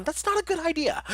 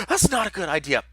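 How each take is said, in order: First: Laughing through the words, pitched up; giggling at his own tongue slip. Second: Said in the usual way. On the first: Real, not acted.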